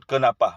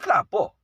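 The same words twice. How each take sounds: First: Each letter is pronounced fully in a Sabah accent. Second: It is said in a Kelantan regional accent. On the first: "Kami sebut kenapa, mengikut huruf yang ada. Baku, sangat-sangat baku" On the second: "Kemudian di Kelantan"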